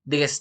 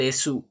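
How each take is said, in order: First: The word ends without a final u vowel. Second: The word ends with a clear final u vowel. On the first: The speaker calls it right. "Des, tidak desu" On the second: The speaker calls it wrong. "tidak desu"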